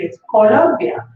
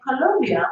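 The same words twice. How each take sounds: First: Slow, emphatic "Colombia" with round Spanish O's; correct pronunciation. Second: "Colombia" said as "Co-LUM-bia"; wrong pronunciation. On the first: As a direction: insist on "Colombia" as co-LOM-bia, stretched out. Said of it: "when it's Colombia". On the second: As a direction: quote the mispronounced "Colombia" in disbelief. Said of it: "why are you pronouncing it". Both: Retold or imitated.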